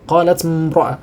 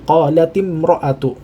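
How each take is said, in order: First: Qalat ends on a bare t sound. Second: Qalat ends in an i vowel linking onward. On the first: The speaker calls it wrong. "mengucapkannya sulit" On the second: The speaker calls it right. "dia langsung diwasalkan"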